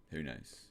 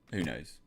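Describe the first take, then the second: First: Dropped to a soft aside; quieter musing. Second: Said in the usual way. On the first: Real, not acted. Repeating a chat answer to himself, softer. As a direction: say it again under your breath.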